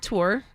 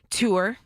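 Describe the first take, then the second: First: It is said in her usual accent. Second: It is said in a New York accent.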